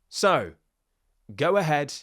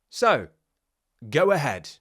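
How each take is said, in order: No difference in how they are said.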